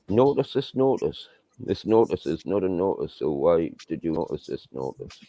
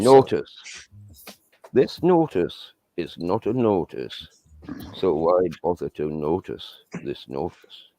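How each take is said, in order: First: It is said quickly. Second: It is said more slowly.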